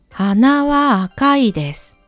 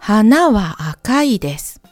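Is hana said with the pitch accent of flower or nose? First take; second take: nose; flower. First: Hana carries the pitch accent meaning nose. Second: Hana carries the pitch accent meaning flower. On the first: The nose is red. "この文はnose is red" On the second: The flower is red. "この文はflower, flower is red"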